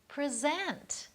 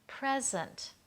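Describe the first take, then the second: First: The stress is on the second syllable. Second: The stress is on the first syllable. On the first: It names an action, to introduce or show. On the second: It names a gift, a thing.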